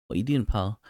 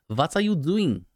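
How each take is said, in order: First: Said in the usual way. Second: High-pitched hammed-up German accent; mock German accent. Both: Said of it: "That was my German accent".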